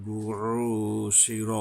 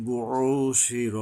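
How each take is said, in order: First: বুউশির ending clipped on শির, with no alif; short shir ending. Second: বুউশির drawn out with a throat-pressed ain; slow বুউশির, squeezing the ain. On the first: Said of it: "শির পরে আবার র". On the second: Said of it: "আইন আসছে, গলা চেপে". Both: Shown as a demonstration.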